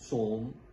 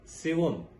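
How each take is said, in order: First: It is said as one syllable with an o. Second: It is said as two syllables starting with si. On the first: The speaker calls it wrong. "जो कि गलत है" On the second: The speaker calls it right. "सीन के नीचे जेर है"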